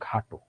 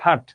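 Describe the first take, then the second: First: The word ends with an o vowel. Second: The word ends without an o vowel. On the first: The speaker calls it right. "এটার উচ্চারণ খাটো" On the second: The speaker calls it wrong. "তুই খাট?"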